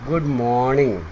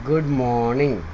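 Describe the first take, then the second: Both takes have the same delivery.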